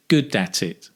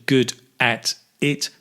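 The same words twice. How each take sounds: First: "good at it" run together as one word; linked words. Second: "good at it" word by word, with gaps; words separated. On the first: Teacher showing learners the connection, "good at it" linked in one go. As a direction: link the d of "good" into "at it". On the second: Teacher showing learners the separate words, "good at it" unlinked. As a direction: say "good", "at", "it" apart with full vowels. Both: Shown as a demonstration. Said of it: "Notice the connection".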